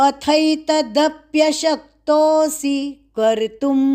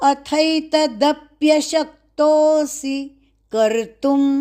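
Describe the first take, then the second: Both takes have the same delivery.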